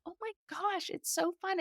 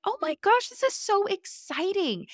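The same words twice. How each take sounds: First: High and much softer, a delighted near-whisper; hushed delight. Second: Excited gush. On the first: Mom privately delighting in her growing kid, soft high gush. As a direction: gush it quietly, almost to yourself. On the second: Mom thrilled by her daughter's new stage, high excited gush. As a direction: squeal it like great news just landed. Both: Retold or imitated.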